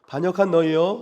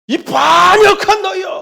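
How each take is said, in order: First: It is said calmly, without anger. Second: It is said in a harsh, angry voice. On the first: "이렇게 했을까요?" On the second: "갑자기 격한 목소리로"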